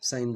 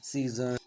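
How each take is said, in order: First: The g is not pronounced at all. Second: The g is pronounced before the n. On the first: The speaker calls it right. "सिर्फ साइन बोला है" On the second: The speaker calls it wrong. "तो मैंने सीजन ऐसे कुछ बोला है क्या"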